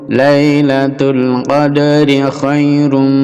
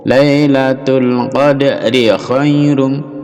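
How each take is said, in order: Both takes have the same delivery.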